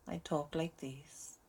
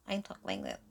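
First: It is spoken in a Welsh accent. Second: It is spoken in a Valley girl accent. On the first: "if I was talking to a Welsh person, I'd talk like this" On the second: "if I was a Valley girl, I'd talk like this"

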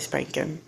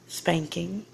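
First: The final g sound is dropped. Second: The final g sound is pronounced. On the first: "I've dropped my G's" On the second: "it's not the way I would say that"

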